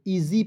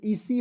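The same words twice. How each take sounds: First: Said in the usual way. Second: "ईसी" with an s sound in place of z; wrong pronunciation. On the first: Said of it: "ईजी पढ़ेंगे". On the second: Shown as a demonstration. Teacher shows students the mistake, mispronounced "ईसी" with s. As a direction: say "ईसी" with a hissed s in the middle. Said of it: "क्या है, गलत है".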